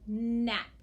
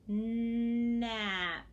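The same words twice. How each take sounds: First: The word is said at a normal speed. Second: The word is said very slowly, drawn out.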